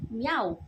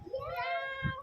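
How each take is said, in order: First: Cat meow. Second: High squeaky meow, softer. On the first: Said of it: "anong sound ni cat?". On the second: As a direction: meow like a tiny kitten. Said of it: "Paano yung meow?". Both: Shown as a demonstration.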